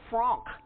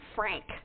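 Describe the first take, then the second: First: The name is said with a German pronunciation. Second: The name is said with an English pronunciation. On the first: The speaker calls it right. "it is Frank" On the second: The speaker calls it wrong. "not Frank"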